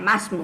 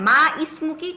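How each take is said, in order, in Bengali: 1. 'ismuki'-র শুরুর স্বরধ্বনিটি বাদ যায়, ফলে দুটি শব্দ জোড়া লাগে। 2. 'ismuki'-র শুরুর স্বরধ্বনিটি আলাদাভাবে উচ্চারণ করা হয়। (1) "আলিফটা উচ্চারণ হবে না" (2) "আমরা কিন্তু এইভাবে কথা বলি না"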